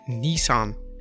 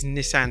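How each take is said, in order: First: Nissan is said with an American pronunciation. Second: Nissan is said with a British pronunciation.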